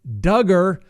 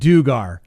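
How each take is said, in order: First: The name rhymes with the word hugger. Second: The name does not rhyme with hugger. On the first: The speaker calls it right. "rhymes with hugger" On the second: The speaker calls it wrong. "before I pronounced it Dugar"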